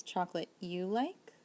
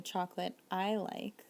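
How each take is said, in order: First: "Chocolate you like" with a long rise on like; questioning rise. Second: "Chocolate I like" slow and level, no rise; telling statement. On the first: Teacher asking if you like chocolate, rising question tone. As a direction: ask "Chocolate you like", pitch climbing at the end. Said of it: "Notice the difference". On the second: Teacher telling you a liking, slow statement tone. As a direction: state "Chocolate I like" evenly as a fact. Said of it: "if I'm telling you". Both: Shown as a demonstration.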